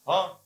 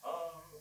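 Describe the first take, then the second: First: It is said in an angry tone. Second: It is stretched out melodiously.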